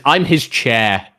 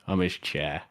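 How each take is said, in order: First: Slow, stressed I'm his chair; slow readout. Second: Much softer, muttered I'm his chair; quiet repeat. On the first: Streamer reads a chat message aloud, slow and drawn out. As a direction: drag out "his" slowly. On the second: Streamer repeats the chat message to himself, much softer. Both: Shown as a demonstration.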